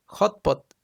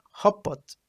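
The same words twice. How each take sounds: First: "hot pot" with the t kept before the p; careful unassimilated form. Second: "hot pot" with the t melted into the p; assimilated form. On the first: Teacher giving an assimilation example, "hot pot" with its t kept. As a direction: say "hot pot" as two separate words, t intact. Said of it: "change or melt into a new sound". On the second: Teacher showing assimilation, "hot pot" run together as "hop pot". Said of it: "it changed the sound". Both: Shown as a demonstration.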